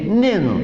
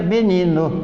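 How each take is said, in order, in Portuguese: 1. A primeira sílaba é engolida, restando duas. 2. As três sílabas são pronunciadas por completo. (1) "ele dizia nino, nino, engolia uma sílaba" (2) "ele não dizia menino"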